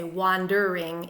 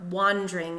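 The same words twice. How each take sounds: First: "wandering" said wan-der-ing, three syllables; "wandering" fully, three syllables. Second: "wandering" squeezed to wan-dring, two syllables; "wandering" as wandring. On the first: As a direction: give "wandering" all three beats. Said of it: "doesn't intend us to say wandering in three syllables". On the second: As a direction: elide "wandering" to two beats. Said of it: "wandering in two syllables". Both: Shown as a demonstration.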